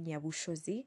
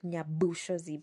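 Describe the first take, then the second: First: The 'bu' syllable is reduced. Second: The 'bu' syllable is sounded out fully. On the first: It is said the way locals say it. The speaker calls it right. "You just say Nyabushozi" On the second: It is read the way it is spelled. The speaker calls it wrong. "Some people pronounce the B-U like Nyabushozi, but that's not how you pronounce it here"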